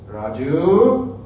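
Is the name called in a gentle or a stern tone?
stern. The name is said in a stern, scolding tone. The listener is about to be corrected. "you knew you were going to be corrected"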